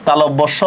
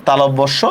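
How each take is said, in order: The two takes are said the same way.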